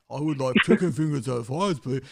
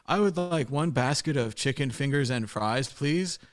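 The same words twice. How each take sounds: First: Mock the American's order, breaking into a laugh; Irish guy mimicking an American. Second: Said in the usual way. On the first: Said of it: "And he's like". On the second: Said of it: "unaccented English is the way".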